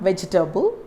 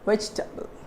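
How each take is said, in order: First: The word has four syllables, sounding the middle e. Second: The word has three syllables, dropping the middle e. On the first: The speaker calls it wrong. "It's not vegetable" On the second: The speaker calls it right. "There is one letter where I am not pronouncing it here. It becomes silent"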